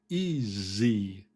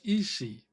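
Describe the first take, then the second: First: The middle consonant is a Z sound. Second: The middle consonant is an S sound. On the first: The speaker calls it right. "We have a Z sound in there" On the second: The speaker calls it wrong. "If a Spanish speaker says easy"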